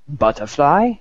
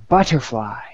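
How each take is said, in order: First: Higher, questioning mock German accent; scornful German query, rising sharply at the end; fuming German. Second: Put-on savoured word in light English accent; a touch of admiring English accent; joke's English guy. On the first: German guy challenging the others' words, mock fuming German accent. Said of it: "the German sits there for a second fuming". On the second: English guy praising his own word, light English accent. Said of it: "the English guy says to the French guy".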